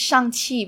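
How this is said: The name is said with Mandarin Chinese sounds. "In Chinese, it's Shang-Chi"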